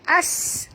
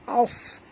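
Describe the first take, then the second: First: The s sound is thin and hissing. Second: The s sound is thick and heavy. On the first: The speaker calls it wrong. "bunyi sofir sin ya, tak betul" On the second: The speaker calls it right. "Ini tebal"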